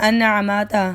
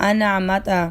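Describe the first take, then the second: Both takes have the same delivery.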